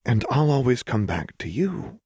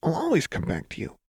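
First: Restrained, higher-pitched promise; Lux. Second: High, brittle cheer through a smile; much higher, fragile reassurance; Jinx. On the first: Lux echoing Jinx's promise instead of groaning, restrained. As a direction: hold back the groan, keep it gentle. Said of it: "forced herself not to grit her teeth and groan". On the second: Jinx promising Lux she'll return, brittle smile. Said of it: "said with a wide, brittle smile". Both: A narrator's reading.

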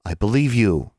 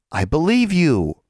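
First: Said in the usual way. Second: Slow and higher, not quite sure of it; drawn out high to sound doubtful; unconvincing reassurance. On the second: Acted. Anna half-heartedly reassures Alexandra, slow and unconvincing. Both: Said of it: "Alexandra wasn't sure Anna believed her".

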